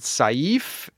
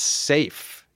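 First: The vowel sounds like the vowel in 'sigh'. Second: The vowel sounds like the vowel in 'say'. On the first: The speaker calls it right. "I always pronounce it Saif" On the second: The speaker calls it wrong. "they corrected me and said, it's safe"

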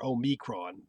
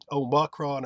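First: The middle syllable sounds like 'me'. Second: The middle syllable sounds like 'ma'. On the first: "ma or me is fine" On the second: "ma or me is fine"

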